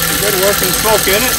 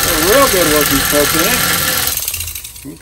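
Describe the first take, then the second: First: Higher, louder, pleased and excited. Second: Slow, loud, leaning on real; drawn out emphasis. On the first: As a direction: call it out delighted. Pleased the engine smokes. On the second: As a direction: stretch it out and savour it. Repeats it, drawn out. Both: Real, not acted.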